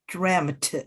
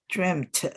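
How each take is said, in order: First: It has a short 'eh' vowel ending in 't'. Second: The same.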